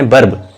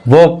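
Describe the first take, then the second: First: वर्ब said with a rolled r, "verb"; वर्ब with the r sounded clearly; वर्ब pronounced r-fully, the mistaken way; wrong pronunciation. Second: वर्ब said as "vob" with silent r; वर्ब with no r sound, vowel drawn long; वर्ब spoken the British way, r dropped; correct pronunciation. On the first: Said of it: "वर्ब नहीं है". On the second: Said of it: "कुछ लोग पढ़ते हैं वर्ब, वर्ब नहीं है". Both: Shown as a demonstration.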